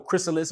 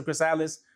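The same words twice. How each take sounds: First: "chrysalis" said KRISS-uh-liss; first-syllable stress pronunciation. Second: "chrysalis" said kriss-EYE-liss; alternative pronunciation. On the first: Coach asking viewers how to pronounce it, "chrysalis" as KRISS-uh-liss. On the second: Coach asking viewers how to pronounce it, "chrysalis" as kriss-EYE-liss. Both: Shown as a demonstration. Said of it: "Let me know how to pronounce it".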